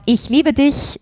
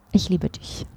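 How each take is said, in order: First: „Ich liebe dich“ tossed off higher in a playful Meidling Viennese lilt; joking Meidling love line. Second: „Ich liebe dich“ said much softer and sincerely, in plain Standard German. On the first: To the host, showing the jokey Meidling version of a love line. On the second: To the host, showing the earnest version after the joke, softly sincere. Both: Shown as a demonstration. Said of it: "sage ich".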